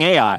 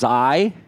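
First: The name is said as two syllables. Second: The name is said as one syllable. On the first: The speaker calls it wrong. "I'm going to keep calling it AI because I like saying AI" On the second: The speaker calls it right. "technically the correct pronunciation for Ai is I"

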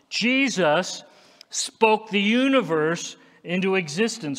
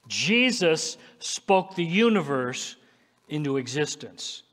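First: It is said strongly and forcefully. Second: It is said in a plain, ordinary way.

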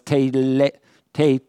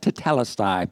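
First: The E vowels are said as long A sounds. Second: The E vowels are said as plain E sounds. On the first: "the E's come out as a long A" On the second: "I've always said tetelestai"

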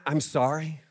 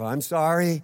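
First: It sounds sincere and heartfelt. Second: It sounds grudging and insincere, like a child.

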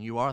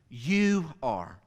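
First: The stress falls on the word are. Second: The stress falls on the word you. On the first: You already are this, not merely could be. "So I've emphasized the word are" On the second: Only you are this, not anyone else. "I'm going to emphasize the other word"

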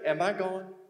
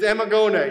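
First: It is said as a three-word question. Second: It is said as one flat name. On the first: "If it were in Texas, this is how we would pronounce it" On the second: "It's Amagone"

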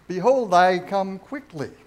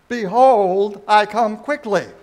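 First: It is said in a calm, plain voice. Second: It is said with more force and loudness.

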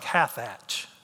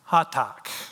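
First: The name ends with a 'ch' sound. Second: The name ends with a 'k' sound. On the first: The speaker calls it wrong. "it looks like Hathach" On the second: The speaker calls it right. "It's actually Hatak, if you want to pronounce it correctly"

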